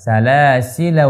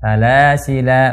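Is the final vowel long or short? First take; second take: short; long. First: The final vowel is short. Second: The final vowel is long. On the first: The reading continues into the next word. "Salasila kita baca pendek" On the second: The reader stops on this word. "Salasila baca panjang"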